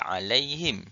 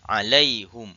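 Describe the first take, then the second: First: The final vowel is i. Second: The final vowel is u. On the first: This is the usual reading, which eases pronunciation. "kita baca kasrah" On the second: This reading follows the original vowel. "hamzah dia ikut baris asal huruf ha"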